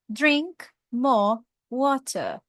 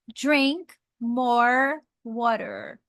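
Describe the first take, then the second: First: It is said in a British accent. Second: It is said in an American accent. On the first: "o britânico falaria drink more water" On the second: "Já o americano"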